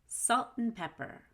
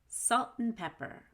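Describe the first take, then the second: No difference in how they are said.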